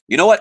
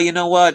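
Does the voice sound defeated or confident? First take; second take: confident; defeated. First: It sounds confident and determined. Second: It sounds defeated and unsure.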